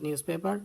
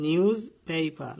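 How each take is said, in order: First: Quicker "newspaper" as nyus-PE-par; wrong pronunciation. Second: Very slow "Newspaper" with a buzzing z; emphatic model "Newspaper", z and long ay; correct pronunciation. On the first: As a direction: hiss an s in "newspaper" and sound the final r. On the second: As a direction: draw out "Newspaper" as NYOOZ-PAY-pa. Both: Shown as a demonstration. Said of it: "not newspaper".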